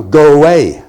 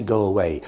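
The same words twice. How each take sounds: First: Loud, curt brush-off; a mock farmer telling a stranger to go away; gruff go away. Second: Said in the usual way. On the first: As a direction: bark it at the stranger on the doorstep. Imagined farmer dismissing stranger.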